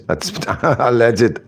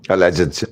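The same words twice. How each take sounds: First: Alleged drawn out slowly with a laugh; sarcastic slow alleged; mocking stress on alleged. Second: Said in the usual way. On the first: Shown as a demonstration. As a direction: lean on alleged, amused and sarcastic.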